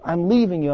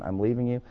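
First: It is screamed with strong emotion. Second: It is said flatly in a monotone. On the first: The decision comes from a burst of emotion. "she starts to beat on you and screams, yelling at you" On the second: The decision is final and settled. "she says in a monotone"

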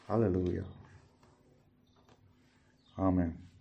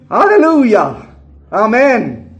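First: It is said softly, without force. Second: It is shouted loudly, with force. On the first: The speaker calls it wrong. "This, by the way, is never an hallelujah and an amen" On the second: The speaker calls it right. "It is always a shout"

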